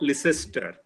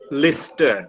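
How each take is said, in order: First: Every letter of the name is sounded out. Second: The name is said in a shortened form. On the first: The speaker calls it wrong. "not Leicester" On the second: The speaker calls it right. "Lister, not Leicester"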